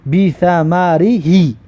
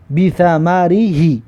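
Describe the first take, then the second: First: بی ثمری هی read slowly, each sound drawn out; slow model reading. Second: بی ثمری هی repeated slowly and clearly. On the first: Teacher to pupils, slow careful model reading. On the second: Teacher repeating the word for pupils, slow and clear. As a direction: say بی ثمری هی again, slow and even. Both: Shown as a demonstration. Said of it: "ببینید".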